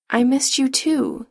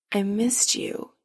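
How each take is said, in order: First: Slow, higher-pitched answer in full voice; tender reply. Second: Soft, slow confession, lightly hushed; understated whisper, drawn out; mild whisper. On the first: Adam returns Chris's confession before a kiss, gently tender. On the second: Chris shyly admits he missed Adam, mildly whispered. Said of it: "he whispers". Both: A narrator's reading.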